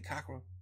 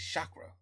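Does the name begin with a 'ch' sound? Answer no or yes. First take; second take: no; yes. First: The name begins without a 'ch' sound. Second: The name begins with a 'ch' sound. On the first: The speaker calls it wrong. "Did I say CAKRA?" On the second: The speaker calls it right. "It's CHAKRA"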